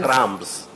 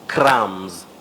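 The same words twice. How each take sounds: First: A b sound is pronounced before the final s. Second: No b sound is pronounced before the final s. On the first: The speaker calls it wrong. "not crumbs" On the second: The speaker calls it right. "just like we talk of crumbs"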